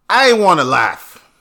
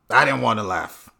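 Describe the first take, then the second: First: Loud, higher first take; emphatic. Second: Said in the usual way. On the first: Real, not acted. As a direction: insist loudly he held back.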